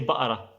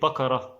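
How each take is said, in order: First: The middle consonant is a glottal stop. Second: The middle consonant is a clear k sound.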